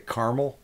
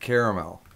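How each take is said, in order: First: The word is said with two syllables. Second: The word is said with three syllables. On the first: "a lot of people say caramel" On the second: "I always pronounce it caramel because there's that extra A"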